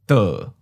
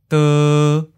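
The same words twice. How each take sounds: First: The syllable starts mid and falls. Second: The syllable has a mid, flat pitch. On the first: "Third tone, mid falling" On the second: "Seventh tone, mid flat"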